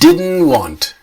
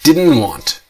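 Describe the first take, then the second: First: The two words run together as one. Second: The two words run together as one.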